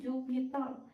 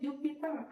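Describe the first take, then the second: First: The word ends with an L sound. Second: The word ends with an R sound. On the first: The speaker calls it wrong. "huruf R menjadi L" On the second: The speaker calls it right. "kata yang harus sebenarnya diucapkan yaitu Jupiter"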